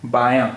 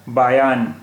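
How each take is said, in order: First: बायां with the final aa nasalized, no n consonant; nasalized vowel ending. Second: बायान with a clearly sounded n at the end; full final n. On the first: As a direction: let बायां end open in a nasal vowel. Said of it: "लेकिन अभी ये है". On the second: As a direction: finish बायान on a full consonant n. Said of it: "शब्द का उच्चारण होता". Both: Shown as a demonstration.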